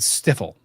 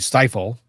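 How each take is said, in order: First: The word has an odd, unfamiliar pronunciation. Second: The word has its familiar, common pronunciation. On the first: The speaker calls it wrong. "he said stifle, which is a pronunciation I had never in my life heard before" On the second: The speaker calls it right. "to stifle"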